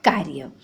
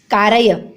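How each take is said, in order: First: "कार्य" as kar-ya, low and soft; two syllables in "कार्य", no vowel after r; correct pronunciation. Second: "कारय" as three syllables ka-ra-ya; wrong pronunciation. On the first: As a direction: join r straight to y in "कार्य". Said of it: "बल्कि क्या होता है बच्चों". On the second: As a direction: put a vowel after r in "कारय". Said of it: "कारय नहीं होता". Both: Shown as a demonstration.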